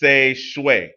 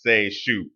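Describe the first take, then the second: First: The word ends with a 'shweh' sound. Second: The word ends with a 'shoo' sound. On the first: The speaker calls it right. "but Seshwe" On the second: The speaker calls it wrong. "in my like American English mind that says Seishu"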